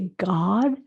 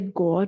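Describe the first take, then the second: First: The vowel is a slightly rounded open ah. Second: The vowel sounds like a closed O. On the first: The speaker calls it right. "we say God. So a little bit of a rounded ah" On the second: The speaker calls it wrong. "we write it as an O, but it, we don't say God"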